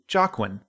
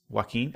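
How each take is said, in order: First: The name begins with a hard J sound. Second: The name begins without a hard J sound. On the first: The speaker calls it wrong. "I did not know that was how his name was pronounced back then" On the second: The speaker calls it right. "I know that his name is Joaquin, and I know that it's pronounced that way"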